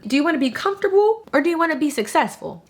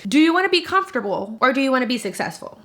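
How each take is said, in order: First: It is said in a plain, calm voice. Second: It is said loudly and with strong force.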